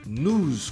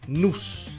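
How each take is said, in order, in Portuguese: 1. A palavra termina com som de z. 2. A palavra termina com som de s. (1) "News com som de Z" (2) "vai parecer que você está dizendo isso aqui, news, essa palavra esquisita aqui, que significa laço"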